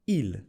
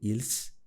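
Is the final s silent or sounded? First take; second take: silent; sounded. First: The final s is not pronounced. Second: The final s is pronounced. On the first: The speaker calls it right. "did you notice I didn't pronounce the S" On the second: The speaker calls it wrong. "I didn't say ils"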